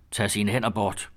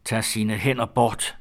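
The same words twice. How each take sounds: First: Slow, measured command; simple warning. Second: Very slow, weighted command; insistent warning. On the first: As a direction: say it slowly, without raising the voice. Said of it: "Han sagde blot". (langsom, behersket advarsel) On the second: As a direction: drag out each word, firmly. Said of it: "sagde Ole endnu en gang". (meget langsom, eftertrykkelig advarsel) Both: A narrator's reading.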